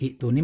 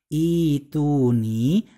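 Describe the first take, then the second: First: A glottal stop follows the first vowel. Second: The first vowel is long with no glottal stop. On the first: The speaker calls it wrong. "terbacanya bukan i'tuni" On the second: The speaker calls it right. "melainkan ituni"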